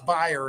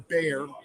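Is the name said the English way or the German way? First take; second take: German; English. First: It is said the German way. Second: It is said the common English way. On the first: "if you're German" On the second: "as people pronounce it"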